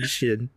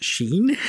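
First: The vowel is short, like 'shin'. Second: The vowel is long, like 'sheen'. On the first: This is how the Japanese guests say it. The speaker calls it right. "the Japanese guys come on, and they're saying Shin" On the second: This is how the American host says it. The speaker calls it wrong. "the American guy who has decided that Shin is pronounced Sheen"

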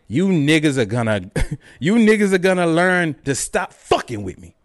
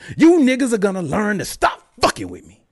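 First: It is read in a plain, flat way. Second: It is read with strong, forceful conviction.

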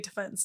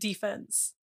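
First: The stress is on the second syllable. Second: The stress is on the first syllable. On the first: It refers to the legal side in a trial. The speaker calls it right. "I say defense" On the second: It refers to the defending side in sports. The speaker calls it wrong. "not defense. Defense is sports"

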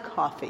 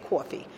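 First: It is said with a general accent. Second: It is said with a New York accent.

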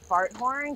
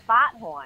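First: It is said in the speaker's ordinary accent. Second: It is said in a Boston accent.

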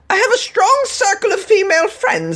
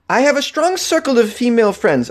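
First: It is said in a put-on British accent. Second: It is said in the speaker's usual accent.

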